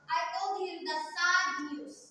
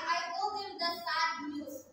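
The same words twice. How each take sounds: First: The stress is on "sad". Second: The stress is on "I".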